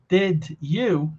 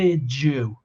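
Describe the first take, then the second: First: A clear d is heard before you. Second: The d and you blend into j. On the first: "ao invés de falar did you" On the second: "esse segundo D de did mudou para o som de j"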